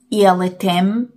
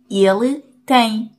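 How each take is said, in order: First: The last word ends with a clear m sound. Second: The last word ends in a nasal vowel. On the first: The speaker calls it wrong. "نمیگیم تم، ایل تم، نه" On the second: The speaker calls it right.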